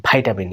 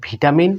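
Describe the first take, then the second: First: "ভিটামিন" said as vai-ta-min; American pronunciation. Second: "ভিটামিন" with a vi first syllable; British pronunciation. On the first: Teacher contrasts for learners, American vitamin starting on vai. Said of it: "American". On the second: Teacher contrasts for learners, British vitamin starting on vi. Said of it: "এ হলো British". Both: Shown as a demonstration.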